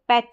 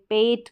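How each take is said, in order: First: The vowel is short, like English short e. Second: The vowel is long, like Hindi e. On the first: The speaker calls it right. "इसको पैट बोलेंगे, ... short sound रहेगा" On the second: The speaker calls it wrong. "पेट करके नहीं बोलेंगे"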